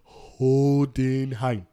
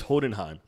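First: Every syllable of the name is carefully enunciated. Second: The name is said quickly and casually. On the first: "they really had to like enunciate every syllable in that" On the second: "his name is Hohenheim"

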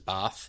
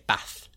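First: The word is said in a New Zealand accent. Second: The word is said in a Yorkshire accent. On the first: "which in a New Zealand accent is bath" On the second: "if in a Yorkshire accent, they would in lots of places say bath"

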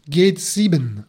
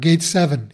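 First: The title is said the German way. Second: The title is said the English way.

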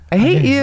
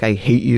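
First: It is said in a happy, cheerful tone. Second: It is said in an angry, hateful tone.

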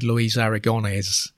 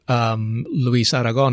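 First: The name is said with an English accent. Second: The name is said with a Spanish accent. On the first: "the anglicized pronunciation" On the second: "pronounce the foreign name with a foreign accent"

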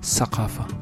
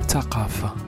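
First: The word begins with an s sound. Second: The word begins with a t sound. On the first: This is the Eastern dialect form. "dialectes orientaux où le Tha devient S" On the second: This is the Moroccan form. "Tha devient Ta"

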